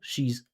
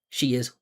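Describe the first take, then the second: First: It is said as one single syllable. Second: It is said as two separate syllables. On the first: The speaker calls it right. "The contraction is one syllable" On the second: The speaker calls it wrong. "That's two syllables"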